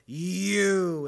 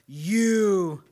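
First: It is said in a Russian accent. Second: It is said in a plain, unaccented voice.

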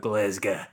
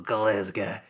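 First: It is said in a strong Glaswegian accent. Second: The same.

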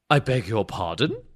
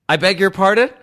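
First: It is said in a British accent. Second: It is said in the speaker's normal accent. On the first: The speaker calls it right. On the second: The speaker calls it wrong.

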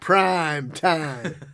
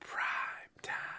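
First: It is said loudly. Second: It is said at normal volume.

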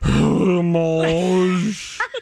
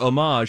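First: The word is said with a showy, affected pronunciation. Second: The word is said in a plain, ordinary way. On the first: "she will add affectation to it" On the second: "she won't say like homage"

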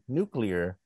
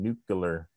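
First: It is said as 'nuclear', with 'clear'. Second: It is said as 'nucular', with 'cular'. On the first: The speaker calls it right. "stopped being able to say nuclear" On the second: The speaker calls it wrong. "just started saying nuclear"

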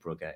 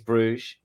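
First: The name is pronounced the Flemish way. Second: The name is pronounced the French way. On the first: It names the football team. "It's Flemish rather than French" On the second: It names the city. "The town or the city is Bruges"

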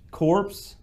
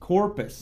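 First: The name is said as one syllable. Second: The name is said as two syllables. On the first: The speaker calls it wrong. "I guess that's the way he pronounced it" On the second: The speaker calls it right. "his name is pronounced Corpus"

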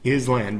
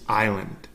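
First: The word is said with an S sound. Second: The word is said without an S sound. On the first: The speaker calls it wrong. "It looks like island. Island, because there's an S" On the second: The speaker calls it right. "But the S is silent, so it's just island"

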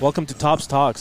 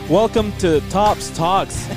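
First: The voice is dropped to a deeper pitch. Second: The voice is at a higher, less deep pitch. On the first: "Drop it down" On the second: "you're supposed to do the announcer voice"

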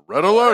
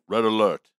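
First: It is said very loudly. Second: It is said at a normal, quiet volume.

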